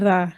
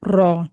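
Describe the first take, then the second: First: The r is light, with a thin vowel. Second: The r is heavy, with a full vowel. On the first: "रा को बारीक पढ़ेंगे" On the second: "इसको हम मोटा पढ़ेंगे"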